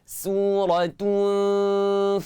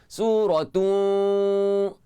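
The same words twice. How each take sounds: First: The lips round, then spread for a thin hum. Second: The lips stay rounded through the nasal hum. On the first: The speaker calls it right. "Macam tu cara dia" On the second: The speaker calls it wrong. "ramai juga orang yang muncung tak seringai langsung. ... salah ah"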